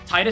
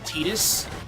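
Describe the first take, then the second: First: The first syllable sounds like "tie". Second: The first syllable sounds like "tee". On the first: The speaker calls it right. "sounds way better because it, ha it has tide in the name" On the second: The speaker calls it wrong. "I will never, ever submit to his name being Tidus"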